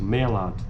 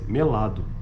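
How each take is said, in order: First: The first-syllable vowel is open. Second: The first-syllable vowel is closed. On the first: This is how it is said in the Brazilian Northeast. "pronunciadas com vogais abertas no Nordeste" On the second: This is how it is said in the Brazilian Southeast. "E fechadas no Sudeste"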